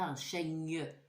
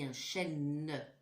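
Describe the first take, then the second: First: The word ends with a 'ny' sound. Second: The word ends with a plain 'n' sound. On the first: The speaker calls it wrong. "Je ne dis pas" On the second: The speaker calls it right. "je n'entends pas gne. ... je dis"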